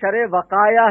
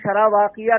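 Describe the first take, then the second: First: The second word sounds like vakaaya. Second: The second word sounds like vaakiya. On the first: The speaker calls it right. "शरे वकाया है वो" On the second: The speaker calls it wrong. "शरह वाकिया नहीं"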